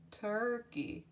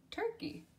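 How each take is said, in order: First: Said in the usual way. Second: Turkey squeaked up high; very high repeat. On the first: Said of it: "word said twice". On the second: Shown as a demonstration. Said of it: "second take of word".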